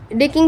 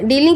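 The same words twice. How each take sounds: First: ڈیکنگ misread with a k sound in the middle; ڈیکنگ read by mistake; misread word. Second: ڈیلنگ said properly as dealing with an l; ڈیلنگ corrected; corrected word. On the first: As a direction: slip into ڈیکنگ instead of dealing. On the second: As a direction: fix the slip and say ڈیلنگ clearly. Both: Real, not acted. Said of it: "ڈیلنگ شاید وہ خود ہی".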